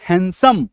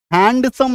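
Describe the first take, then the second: First: हैंडसम said as हैन-सम, no ड; correct pronunciation. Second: हैंडसम with a clear ड, हैंड-सम; wrong pronunciation. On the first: Teacher answers how it's pronounced, correct pronunciation. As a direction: drop the D in हैंडसम. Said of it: "तो इसका क्या उच्चारण होगा?". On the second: Teacher warns against saying it, wrong pronunciation. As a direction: sound out the D in हैंडसम. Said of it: "नहीं बोलेंगे". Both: Shown as a demonstration.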